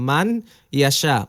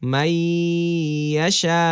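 First: The n sound is pronounced before the y. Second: The n sound is dropped into a doubled y. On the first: The speaker calls it wrong. "আসলে হওয়া উচিত ছিল হচ্ছে মান ইয়া শাহ" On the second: The speaker calls it right. "জজমওয়ালা হরফটা বাদ হয়ে যাবে, মানে উচ্চারণে আসবে না"

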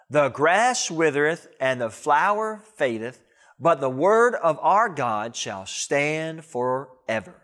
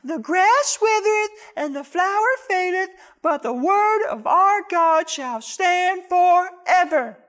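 First: It is said in a deep, manly voice. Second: It is said in a high, girly voice.

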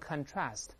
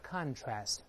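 First: The stress is on the second syllable. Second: The stress is on the first syllable. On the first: It is used as a verb. "动词读成contrast" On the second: It is used as a noun. "这个名词叫contrast"

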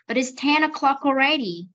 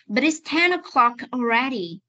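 First: The sentence is said quickly with linked sounds. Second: The sentence is said slowly with separated words. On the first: "vậy bây giờ đọc nhanh nhé, đọc nhanh sẽ nối cái âm này và âm này lại với nhau này" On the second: "bây giờ đọc chậm cho cô nào"

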